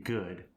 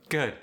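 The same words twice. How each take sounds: First: Said in the usual way. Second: South African "good" with a softened final D; South African accent. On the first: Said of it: "For instance". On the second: Shown as a demonstration. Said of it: "D sound is softened".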